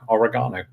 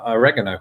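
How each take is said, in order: First: It is said with a British pronunciation. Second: It is said with an American pronunciation. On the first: The speaker calls it right. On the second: The speaker calls it wrong.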